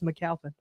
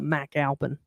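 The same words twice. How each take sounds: First: The name is said in a plain, ordinary way. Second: The name is said in a fancy, dressed-up way. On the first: This is the family's own way of saying it. "you said it right. It's McAlpin" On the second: Other people make the name sound grander. "some people church it up"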